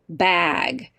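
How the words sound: The vowel is open, like the vowel in 'cat'. "Out west in Arizona, we say words like our, our pronunciation is bag"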